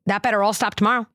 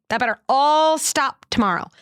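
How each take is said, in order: First: Said in the usual way. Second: Stern threat. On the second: Shown as a demonstration. Mother showing the harsh reply she wanted to give her son. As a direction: lay down the law like a strict parent. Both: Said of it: "what did I wanna say?".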